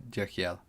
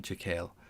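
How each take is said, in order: First: Jekyll said as "JACK-ee-el"; pronunciation option. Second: Jekyll said as "juh-KALE", softly; other pronunciation option. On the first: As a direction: say Jekyll in three syllables, ending "ee-el". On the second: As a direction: say Jekyll softly in two syllables, rhyming with kale. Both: Shown as a demonstration. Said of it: "I don't know which".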